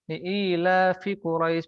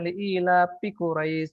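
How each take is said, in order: First: The word 'fi' begins with an f sound. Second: The word 'fi' begins with a p sound. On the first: The speaker calls it right. "Misalkan kita membaca" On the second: The speaker calls it wrong. "seperti uh, orang Sunda ... makhrajnya salah"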